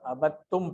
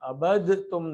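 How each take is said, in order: First: The d is silent and the t is doubled. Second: The d is said separately before the t. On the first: The speaker calls it right. "एक को साइलेंट करके दूसरे पे शद लगा दी जाती है" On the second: The speaker calls it wrong. "इसको हम अबद तुम नहीं पढ़ेंगे"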